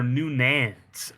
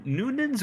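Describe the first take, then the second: First: Noo-NANS for "Noonan's"; "Noonan's" leaning on the second syllable; alternative pronunciation. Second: NOO-nins for "Noonan's"; "Noonan's" with a light, reduced ending; first pronunciation. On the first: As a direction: say "Noonan's" with a full, stretched "nan". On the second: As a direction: say "Noonan's" with stress on the first syllable, short second one. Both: Shown as a demonstration. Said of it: "I don't know if it's".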